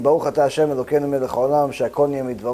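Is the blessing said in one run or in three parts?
one run. It is rushed together without pauses.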